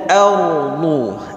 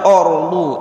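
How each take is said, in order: First: The first vowel is open, like 'a'. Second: The first vowel is rounded, like 'o'. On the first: The speaker calls it right. "tapi bacanya a" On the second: The speaker calls it wrong. "Jangan dibaca orlu"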